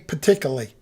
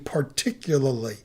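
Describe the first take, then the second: First: The word is slurred, with syllables run together. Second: The word is said carefully, every syllable clear. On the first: The speaker calls it wrong. "I used to say" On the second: The speaker calls it right. "I properly enunciate it"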